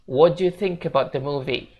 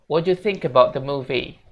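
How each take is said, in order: No difference in how they are said.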